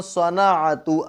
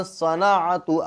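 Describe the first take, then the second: The two takes are said the same way.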